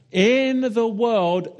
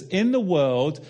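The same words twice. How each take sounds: First: "in the world" repeated higher, louder and slow; slow emphatic repeat. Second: Said in the usual way. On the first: Shown as a demonstration. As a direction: lean into "in the world" the second time, drawn out.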